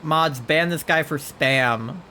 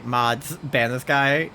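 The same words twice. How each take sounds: First: Mock stern order. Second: Said in the usual way. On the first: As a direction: call the mods in playful outrage. Jokingly calls mods on Charlie. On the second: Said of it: "When I say".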